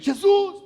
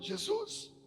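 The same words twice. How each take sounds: First: It is shouted loudly. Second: It is said weakly, short of breath.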